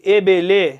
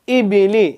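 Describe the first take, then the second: First: The vowels are open 'eh' sounds. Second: The vowels are clear 'ee' sounds. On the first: The speaker calls it wrong. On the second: The speaker calls it right.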